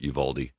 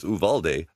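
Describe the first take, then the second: First: It is said the way Texans say it. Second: It is said the way Spanish speakers say it.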